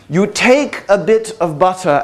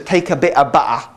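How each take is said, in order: First: It is said in a refined British accent. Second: It is said in a broad British accent.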